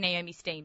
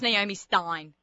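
First: The surname's vowel sounds like 'ee'. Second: The surname's vowel sounds like 'eye'. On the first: This is how the name is said in Australia. "but they say Naomi Steen" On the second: This is the usual pronunciation outside Australia. "So I was Naomi Stein"

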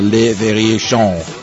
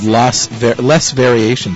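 First: The name is pronounced with French sounds. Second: The name is pronounced with English sounds.

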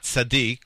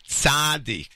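First: It uses the standard Hebrew pronunciation. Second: It uses the colloquial, informal pronunciation. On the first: The title is used in its proper sense. "not tzaddik, which you would, in proper Hebrew, you would say" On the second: The title is applied ironically to someone undeserving. "he sings the word tzaddik"

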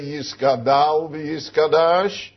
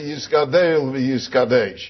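First: The last syllables have an 'ah' vowel. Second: The last syllables have an 'eh' vowel. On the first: The speaker calls it wrong. "you don't say Yiskadal v'Yiskadash" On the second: The speaker calls it right. "the correct pronunciation is Yiskadel v'Yiskadesh"

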